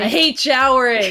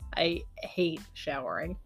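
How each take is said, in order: First: It is said loudly. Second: It is said quietly.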